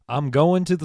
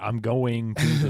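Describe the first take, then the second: First: The final g of 'going' is dropped. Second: The final g of 'going' is pronounced. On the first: "Southerners, they drop their G's" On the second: "it's not"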